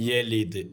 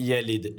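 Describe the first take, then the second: The two takes are said the same way.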